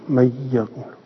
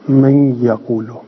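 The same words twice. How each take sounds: First: من یقولو with the nun fully merged into the ya and no nasal hum; without ghunna. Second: من یقولو with the nun merged into یقولو but held nasal through the nose; with ghunna. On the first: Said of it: "و منهم من یدغم بغیر غنه". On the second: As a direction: let the nasal hum ring on من before یقولو. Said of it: "غنه یعنی تو بینی گفته بشه". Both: Shown as a demonstration.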